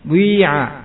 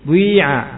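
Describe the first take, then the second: First: A u-like rounded sound blends into the vowel. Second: A u-like rounded sound blends into the vowel.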